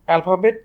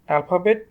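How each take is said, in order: No difference in how they are said.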